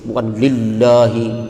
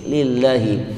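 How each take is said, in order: First: The l sound is heavy and dark. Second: The l sound is thin and light. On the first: The speaker calls it wrong. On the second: The speaker calls it right. "tapi tipis"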